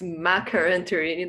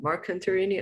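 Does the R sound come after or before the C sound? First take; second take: after; before. First: The R sound comes right after the C sound. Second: The R sound comes right before the C sound. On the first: The speaker calls it right. "So it's Macroanthernae" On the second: The speaker calls it wrong. "not Marcantarini. I inverted the R"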